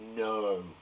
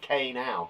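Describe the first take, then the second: First: The word starts with an n sound. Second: A k sound is said before the word. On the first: The speaker calls it right. "But actually, we say it as no" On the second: The speaker calls it wrong. "It looks like K now"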